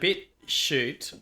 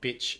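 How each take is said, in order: First: It is split as 'bit' plus 'shoot'. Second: It is split as 'bitch' plus 'ute'. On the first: "It's either bit shoot" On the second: "or bitch ute"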